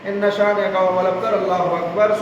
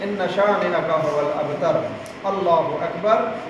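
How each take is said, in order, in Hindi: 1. दोनों वाक्य बिना रुके एक साथ बोले जाते हैं। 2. दोनों वाक्यों के बीच एक छोटा सा विराम होता है। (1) "बोलते हुए अगर रुकू में चले गए तो ये नमाज ख़राब हो जाएगी" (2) "ये जो रुके हैं"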